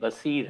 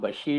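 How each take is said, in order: First: The middle consonant is an 's' sound. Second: The middle consonant is a 'sh' sound. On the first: The speaker calls it right. "बसीर है" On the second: The speaker calls it wrong. "मेरा नाम बशीर नहीं"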